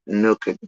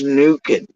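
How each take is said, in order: First: The first vowel sounds like the vowel in 'nook'. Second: The first vowel sounds like the vowel in 'nuke'. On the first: This is how someone else says the name. The speaker calls it wrong. "he's pronouncing it Nookin" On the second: It means heating something in a microwave. The speaker calls it right. "I think he means Nukin, like microwave"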